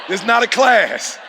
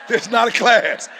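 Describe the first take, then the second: Both takes have the same delivery.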